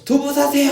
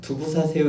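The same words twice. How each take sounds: First: It is shouted loudly like a street vendor. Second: It is spoken at a normal conversational volume. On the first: "큰 소리로 두부 사세요 하고 소리치릅니다" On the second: "그냥 이야기하진 않지요. 두부 사세요 이렇게 하지 않고"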